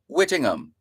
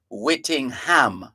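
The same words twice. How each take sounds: First: The h sound in the middle is silent. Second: The h sound in the middle is pronounced. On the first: The speaker calls it right. "you don't pronounce the H" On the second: The speaker calls it wrong. "you don't go out of your way to say"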